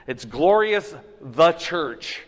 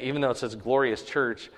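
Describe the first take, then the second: First: "glorious" drawn out slowly and weighted, the rest slowed too; stress on glorious. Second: Said in the usual way. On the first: Shown as a demonstration. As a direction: lean hard on "glorious", slow and deliberate. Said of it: "it's emphatic". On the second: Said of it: "the emphasis".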